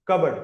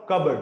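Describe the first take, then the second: No difference in how they are said.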